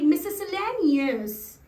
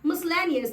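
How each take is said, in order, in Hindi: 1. यह 'mis-eh-lay' से शुरू होता है, एक अतिरिक्त स्वर के साथ। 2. यह 'mis-lay' से शुरू होता है, बिना किसी अतिरिक्त स्वर के। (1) "ना कि मिसेलेनियस" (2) "ये है उसका राइट प्रोनाउंसिएशन"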